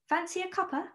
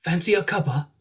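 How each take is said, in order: First: British line, Fancy a cuppa lifted; British accent. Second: American trying Fancy a cuppa in British; a first go at a British Fancy a cuppa; attempted British accent. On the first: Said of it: "we call it a cuppa". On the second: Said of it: "That was very good". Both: Shown as a demonstration.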